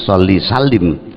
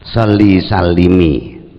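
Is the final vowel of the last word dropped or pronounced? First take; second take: dropped; pronounced. First: The last word ends on a bare consonant. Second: The last word ends with a short 'i' vowel. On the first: The speaker calls it wrong. "bukan sholli salim" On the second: The speaker calls it right. "huruf akhir dibaca kasroh"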